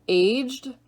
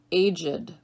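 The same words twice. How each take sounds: First: Aged as AYJD, one syllable. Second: Aged as AY-jid, two syllables. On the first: Teacher reading word list to students, aged as AYJD. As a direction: say aged as a single beat, AYJD. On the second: Teacher giving other pronunciation, aged as AY-jid. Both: Shown as a demonstration. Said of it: "give you both pronunciations".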